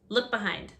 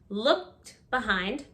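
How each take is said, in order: First: The final D sound of looked is dropped. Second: The final D sound of looked is heard.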